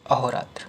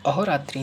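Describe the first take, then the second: First: अहोरात्र ending in tra, no i; corrected form. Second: अहोरात्रि ending in tri; wrong form. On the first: Teacher corrects students, अहोरात्र without final i. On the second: Teacher shows the error, अहोरात्रि ending in i. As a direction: sound a final i in अहोरात्रि. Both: Shown as a demonstration. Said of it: "नहीं".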